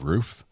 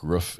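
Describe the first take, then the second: First: It is said with a standard pronunciation. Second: It is said with a Midwestern pronunciation. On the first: "instead of roof" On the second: "We say crick. Like roof"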